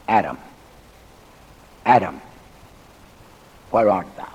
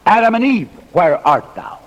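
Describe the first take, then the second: First: Low, subdued call with long pauses; solemn calling. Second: God calls both Adam and Eve, high call falling back; mock calling out. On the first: Acted. Preacher voices God seeking guilty Adam in the garden, solemn calling. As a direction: drop low and let each name hang. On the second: Preacher voices God's supposed call to the pair, mock calling out. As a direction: call the names high, then settle on the question.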